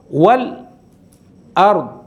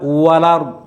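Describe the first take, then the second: First: A brief silent stop comes before 'ard'. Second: The vowel runs straight from 'l' into 'ard'. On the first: "jadi ada saktahnya dulu" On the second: "itu namanya nakal, dipindah"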